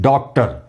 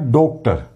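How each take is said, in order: First: The first vowel is an open 'aa' sound. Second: The first vowel is a closed 'o' sound. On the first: "आ की मात्रा के साथ तो ये बनेगा, इसका उच्चारण होगा" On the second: "ओ की मात्रा से लिखेंगे ये बनेगा"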